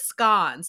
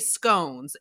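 First: Scones is said with a supposed British pronunciation. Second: Scones is said the usual American way. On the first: This is an idiosyncratic pronunciation claimed to be English. The speaker calls it wrong. "She says scones. And I'm like, nobody says that" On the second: This is the pronunciation most people use. The speaker calls it right. "my mom doesn't say scones"

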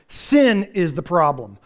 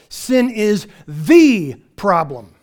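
First: The sentence is said without added emphasis. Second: The sentence is said with strong emphasis.

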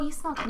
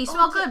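First: It is said in a suggestive, flirtatious tone. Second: It is said in a plain, matter-of-fact tone. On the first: The speaker is hinting at romantic interest. The speaker calls it wrong. "not, like, oh, you smell good. No, that's not what I say" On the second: It is just a statement of fact. The speaker calls it right. "I'm a very fact stater"

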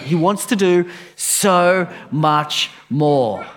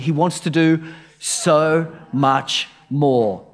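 First: It is said with strong, believing conviction. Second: It is said plainly, without special conviction.

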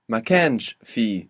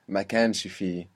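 First: The phrase is said slowly, word by word. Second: The phrase is said smoothly and connected. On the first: "if we go slowly" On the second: "but more fluently"

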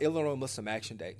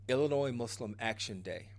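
First: The phrase is said quickly. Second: The phrase is said slowly. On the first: The speaker calls it wrong. "I felt like I said that really fast" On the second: The speaker calls it right. "I'm going to say it again"

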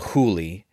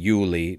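First: The name starts with an H-like sound. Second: The name starts with a Y-like sound.

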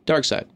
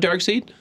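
First: The second part sounds like 'side'. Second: The second part sounds like 'seed'. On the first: The speaker calls it right. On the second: The speaker calls it wrong. "not Dark Seed"

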